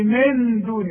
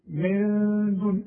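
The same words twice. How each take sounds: First: The n is clearly articulated with the tongue. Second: The n is hidden with a held nasal sound. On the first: The speaker calls it wrong. "اوعى تستعمل لسانك وتقول لي" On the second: The speaker calls it right. "فيبقى النون دي حخفيها وحغنها بمقدار حركتين"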